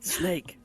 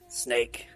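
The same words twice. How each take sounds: First: It is said in Otacon's lighter voice. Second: It is said in Snake's gruff voice.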